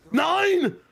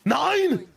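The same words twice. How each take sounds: First: Shouted caster callout. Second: High, rising-then-falling mock call; mock caster callout. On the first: Acted. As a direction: bellow it out full force. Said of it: "I don't think he says the nine like that". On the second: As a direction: toss out the word as a caster. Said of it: "All right, here we go".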